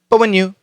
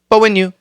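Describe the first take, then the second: The two takes are said the same way.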